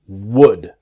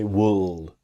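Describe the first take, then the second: First: The L sound is not pronounced. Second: The L sound is clearly pronounced. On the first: The speaker calls it right. "the L is silent" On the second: The speaker calls it wrong. "It's easy to make the mistake to say wool"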